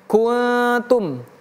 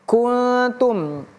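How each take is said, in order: First: The n is hidden in a nasal hum. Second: The n is hidden in a nasal hum.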